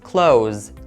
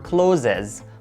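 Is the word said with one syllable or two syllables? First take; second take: one syllable; two syllables. First: The word is said with one syllable. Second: The word is said with two syllables. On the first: The speaker calls it right. "the correct pronunciation is clothes" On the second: The speaker calls it wrong. "A lot of people mispronounce it and they say clothes or closes, but it's wrong"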